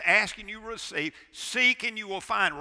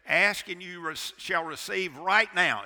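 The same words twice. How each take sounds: First: Verse read out loud and high, no "right now"; preacher quotes the true verse; correct verse. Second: Loud quote with a slow, heavy "right now"; preacher mocks the misquote; misquoted verse. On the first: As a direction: give the verse straight and ringing. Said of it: "It says". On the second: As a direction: lean hard on "right now" as the wrong reading. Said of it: "Is that what it says?". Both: Shown as a demonstration.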